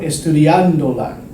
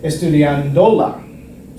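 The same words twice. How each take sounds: First: The stress falls on the syllable 'an'. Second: The stress falls on a syllable other than 'an'. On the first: The speaker calls it right. "I want estudiándola" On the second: The speaker calls it wrong. "I would get a weird pronunciation like estudiándola"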